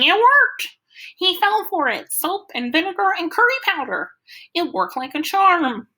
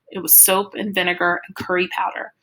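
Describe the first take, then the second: First: Much higher, loud triumphant crowing; manic glee. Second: Said in the usual way. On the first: A narrator's reading. Freak crows to the cops that his trick worked, manic glee. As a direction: gloat like a giddy mad scientist. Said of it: "Freak is laughing like a maniac and saying". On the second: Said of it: "It's only later I figure out".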